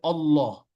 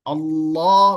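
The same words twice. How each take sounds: First: The a vowel is not pronounced clearly. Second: The a vowel is pronounced clearly. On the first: The speaker calls it wrong. "nggak boleh" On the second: The speaker calls it right. "a-nya jelas"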